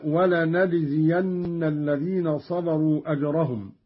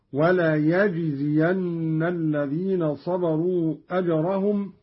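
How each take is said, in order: First: Said in the usual way. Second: وليجزين with a ya, "wa-la-yajziyanna"; Qalun's ya reading. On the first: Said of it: "قرأ قالون بالياء". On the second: Shown as a demonstration. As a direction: say وليجزين with "ya" where the other reading has "na". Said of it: "قرأ قالون بالياء هكذا". (وليجزين بالياء)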